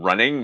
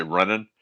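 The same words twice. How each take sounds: First: Said in the usual way. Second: Running said as runnin', final g dropped; running with the ending clipped short, Nova Scotia style; running as runnin', the way Nova Scotians cut it off; Nova Scotia clipping. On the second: Shown as a demonstration. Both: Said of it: "we tend to cut off our, uh, E's".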